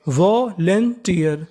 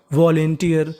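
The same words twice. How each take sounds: First: volunteer slowly split as vo-len-tiyar; syllable by syllable. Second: Said in the usual way. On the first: Shown as a demonstration. Teacher showing learners how the word builds, syllable by syllable. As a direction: draw out each part of volunteer: vo, len, tiyar. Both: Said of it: "तो meaning बनी".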